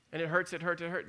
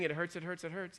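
First: Said in the usual way. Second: "It hurts" repeated softer and dropping away; quiet inner voice. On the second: Retold or imitated. Preacher voicing the mind's doubt, a quieter fading murmur. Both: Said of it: "My mind is saying".

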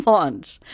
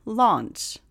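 First: Laugh, then land firmly on Launch; corrected word, laughing. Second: Said in the usual way. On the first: Shown as a demonstration. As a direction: Launch said again with a laugh, stress on the long aw vowel. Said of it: "Not Lunch, Launch". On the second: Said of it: "Not Lunch".

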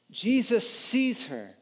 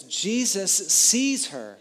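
First: "Jesus sees her" said higher and slower, leaning on Jesus; slow emphatic repeat. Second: Said in the usual way. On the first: Shown as a demonstration. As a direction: linger on each word of "Jesus sees her", stressing Jesus. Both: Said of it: "this little sentence to summarize it".

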